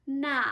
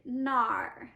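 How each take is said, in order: First: Said in the usual way. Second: "nar" ending in a curled R; erhua R ending. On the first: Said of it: "you can say nar". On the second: Shown as a demonstration. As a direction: colour the vowel of "nar" with an R. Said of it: "this one is the R hua".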